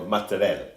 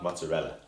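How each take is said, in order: First: Affected Italian-style MOZZARELLA, last vowel dropped; mock-serious Italian "mozzarella" with clipped-off ending; super-serious pronunciation. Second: Said in the usual way. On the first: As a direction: say MOZZARELLA like "motta-RELL", pretentiously. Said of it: "they pronounce everything super serious". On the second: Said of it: "Say it in your accent".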